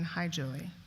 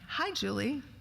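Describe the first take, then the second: First: The greeting sounds flat and neutral. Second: The greeting sounds warm and affectionate. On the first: "in a neutral tone of voice" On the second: "with sort of warmth and affection"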